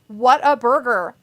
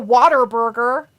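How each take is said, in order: First: The first word is 'what', with no R sound. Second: The first word sounds like 'water', with an R. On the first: The speaker calls it right. "I thought it was what? Like what a burger" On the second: The speaker calls it wrong. "Not a water burger"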